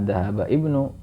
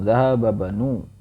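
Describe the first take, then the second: First: A separate i sound begins the second word. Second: The words link directly with no i sound. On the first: The speaker calls it wrong. "bukan bukan zahaba ibnu" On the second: The speaker calls it right. "langsung zahaba banu"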